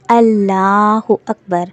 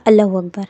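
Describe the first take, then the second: First: اللہ اکبر very slow, doubled l, held open; slow correct Allahu Akbar. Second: اللہ اکبر gabbled fast as alahu akbar; rushed wrong Allahu Akbar. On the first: Teacher corrects with the proper slow form. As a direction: draw out اللہ اکبر syllable by syllable. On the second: Teacher mimics students rushing, wrong way. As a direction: say اللہ اکبر in a hurry, slurred. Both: Shown as a demonstration. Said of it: "نہیں، ایسے نہیں".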